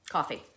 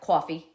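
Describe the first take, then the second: First: Coffee is said in a plain, neutral accent. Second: Coffee is said in a heavy New York accent.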